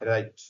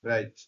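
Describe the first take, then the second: No difference in how they are said.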